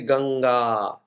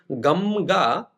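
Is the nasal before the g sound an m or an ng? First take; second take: ng; m. First: The nasal before g is an ng sound. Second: The nasal before g is an m sound. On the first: The speaker calls it right. "I say Ganga" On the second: The speaker calls it wrong. "Gamga is one thing"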